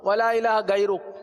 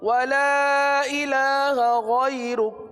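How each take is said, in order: First: Ghairuk starts with a hard g sound. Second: Ghairuk starts with a throaty gh sound. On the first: The speaker calls it wrong. "इस तरह पढ़ते हो जल्दी जल्दी में ... गैन के बजाय गाफ निकल रहा है" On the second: The speaker calls it right. "गैरुक की अदायगी सुन लेना"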